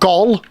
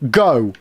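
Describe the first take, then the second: First: The syllable ends with an L sound. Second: The syllable ends on the vowel, no L. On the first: The speaker calls it wrong. "So not Gol" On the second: The speaker calls it right.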